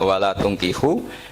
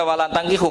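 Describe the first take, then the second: First: The verb's first vowel is a rounded u. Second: The verb's first vowel is an open a. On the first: Guardians must not marry off their daughters to idolaters. The speaker calls it right. "harus dibaca bidomit" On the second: Believing men must not marry idolatrous men. The speaker calls it wrong. "sekali dibaca walantangkihu maka kualitas maknanya itu seperti tadi"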